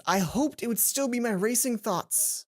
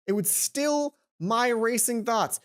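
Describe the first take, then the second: First: Said in the usual way. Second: "still" leaned on slowly as the verb, meaning to calm; slow down and land on "still" as an action. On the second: Shown as a demonstration. Reader correcting her misread, slow weight on "still". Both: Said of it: "Still the verb, not still the description".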